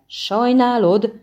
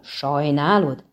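First: Loud, high outraged burst; exploding. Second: Slow, falling bitter echo; bitter repeat. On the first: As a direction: blow up at him with disbelief. (kirobbanó felháborodás) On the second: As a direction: throw it back at him, slower. (keserű, lassú ismétlés) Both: A narrator's reading. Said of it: "robbant ki a hercegből".

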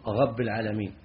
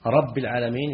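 First: "رب" said as ghabb, with a gargled gh for the r; lisped "رب العالمين", ghayn in place of ra; ra turned to ghayn. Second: Said in the usual way. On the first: Shown as a demonstration. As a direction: replace the r of "رب" with ghayn: ghabb al-alamin. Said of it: "هذا إبدال". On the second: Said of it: "الراء بالغين".

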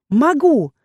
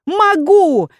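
First: Confident shout. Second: Much higher, louder second cry; stronger confident shout. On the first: Heroine defies the captain, shouting boldly. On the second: Heroine repeats her defiance, even louder. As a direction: push it harder, defiant. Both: Acted. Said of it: "стараясь кричать как можно увереннее".

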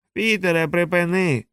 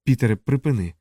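First: Big brother parroting the younger brother's plea, mocking; mocking echo. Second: Said in the usual way. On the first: A narrator's reading. Mocking higher echo of the plea. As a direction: mimic the plea back, pitched higher. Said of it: "Чудово! Виходить, ви, жучари, здатні вгадувати наші імена". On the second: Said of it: "попросив Ендер".

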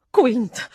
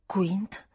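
First: Louder, falling cry of a name; exclamation. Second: Whispered, questioning; hushed echo. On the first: Housekeeper suddenly names the man she knows, exclaiming. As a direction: burst out with the name. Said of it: "esclamò". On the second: Governess echoes the unfamiliar name, whispered question. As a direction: repeat the name under the breath. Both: A narrator's reading.

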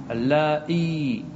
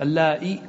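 First: اللائي ending in a long-held ee; final ya kept. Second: اللائي ending in a short i; final ya dropped. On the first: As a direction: stretch اللائي slowly, sounding the final ya. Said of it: "تثبت". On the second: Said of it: "تحذف الياء". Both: Shown as a demonstration.

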